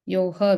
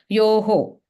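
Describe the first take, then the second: First: The word ends with a 'ha' sound. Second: The word ends with a 'ho' sound. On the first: The speaker calls it wrong. "Yoha, we said" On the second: The speaker calls it right. "it's going to be yoho"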